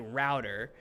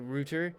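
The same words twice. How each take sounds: First: The word is pronounced a non-British way. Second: The word is pronounced the British English way. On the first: "I say router" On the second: "in British English, some people say router"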